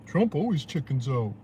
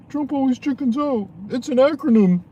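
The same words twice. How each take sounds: First: Said in the usual way. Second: Mock media voice, much higher and louder; mocking high squeal. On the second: Vlogger ridiculing the media's slogan, in a mocking high squeal.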